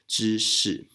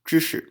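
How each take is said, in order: First: The second syllable has a falling fourth tone. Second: The second syllable has a light neutral tone. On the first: This is how it is said in Taiwan. "in Taiwan, we use the fourth tone" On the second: This is how it is said in China. "in China probably is pronounced 知识, 知识, with a neutral tone here"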